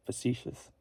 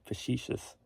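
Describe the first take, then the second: First: Soft try at "facetious" with S in the middle; "facetious" with a crisp see sound; trying out pronunciation. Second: Soft try at "Facetious" with SH in the middle; "Facetious" with a hushed shee sound; trying out pronunciation. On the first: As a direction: say "facetious" as fuh-SEE-shus. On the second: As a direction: say "Facetious" as fuh-SHEE-shus. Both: Shown as a demonstration. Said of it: "what's that word?".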